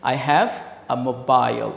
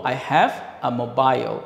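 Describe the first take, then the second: No difference in how they are said.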